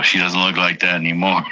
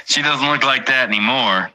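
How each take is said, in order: First: Said in the usual way. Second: Higher mocking repeat. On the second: Shown as a demonstration. Streamer repeating his own line to chat, higher and teasing. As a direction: look said higher, falling off at the end.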